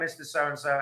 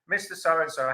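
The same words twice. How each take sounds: First: The voice is flat and low in energy. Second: The voice is lively and full of energy. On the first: The caller is merely asking out of routine. The speaker calls it wrong. "you can tell the tone of the voice is different" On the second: The caller is excited to hear the answer. The speaker calls it right. "you create the enthusiasm"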